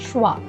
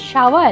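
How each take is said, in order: First: The sh and v sounds join without a vowel. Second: A vowel separates the sh and v sounds. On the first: The speaker calls it right. "But it is ഷ്വ" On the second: The speaker calls it wrong. "It is not ഷവ അല്ല"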